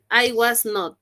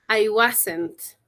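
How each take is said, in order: First: The negative is said in full as two words. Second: The negative is contracted into one short word. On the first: "En su forma normal se pronuncia así" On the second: "Este es en su forma abreviada"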